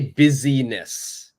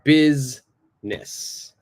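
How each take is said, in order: First: The i is sounded, giving three syllables. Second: The i is silent, giving two syllables. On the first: The speaker calls it wrong. "this I is silent. I don't say busyness" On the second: The speaker calls it right. "It's business"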